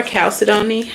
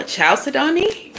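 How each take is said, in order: First: Chalcedony said with a hard k, KAL-sed-oh-nee, rising; k pronunciation. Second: Chalcedony said with a ch sound, CHAL-sed-oh-nee, asked high; ch pronunciation. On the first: Reader unsure of the crystal name tries Chalcedony with k. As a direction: try Chalcedony starting like calcium. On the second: Reader unsure of the crystal name tries Chalcedony with ch. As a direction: try Chalcedony starting like chalk, rising. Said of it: "Or Chalcedony?". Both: Shown as a demonstration.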